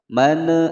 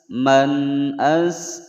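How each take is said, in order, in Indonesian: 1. Bunyi n langsung menyambung ke vokal berikutnya. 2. Bunyi n jelas ditahan sebelum vokal. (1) "salah ya" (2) "Dibaca jelas nun sukunnya, tidak boleh dipantulkan"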